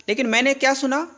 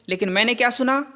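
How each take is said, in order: No difference in how they are said.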